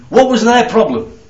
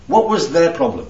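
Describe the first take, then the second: First: Higher, louder question leaning on what; emphatic question. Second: Said in the usual way. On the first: Shown as a demonstration. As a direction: push "What" up and out.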